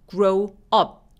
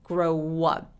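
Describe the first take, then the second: First: The two words are said apart, no w sound. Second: A w sound links the two words. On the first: The speaker calls it wrong. "이렇게 나눠서 발음하지 않고" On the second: The speaker calls it right. "마치 중간에 W가 하나 더 낀 것처럼"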